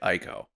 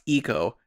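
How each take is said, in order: First: The first vowel sounds like 'eye'. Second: The first vowel sounds like 'ee'. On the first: The speaker calls it wrong. "your stubborn attitude toward pronouncing it Ico" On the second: The speaker calls it right. "I believe it is pronounced eco"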